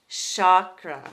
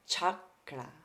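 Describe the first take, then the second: First: The word begins with a sh sound. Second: The word begins with a ch sound. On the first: "commonly pronounced with an S H" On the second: "this sound is a ch ... refined pronunciation"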